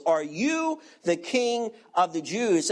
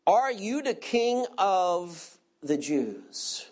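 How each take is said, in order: First: "you" said with a strong emphatic stress; emphatic stress on "you", rest level. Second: Said in the usual way. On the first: Shown as a demonstration. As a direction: lean hard on "you" in the question. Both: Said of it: "And the question is emphatic".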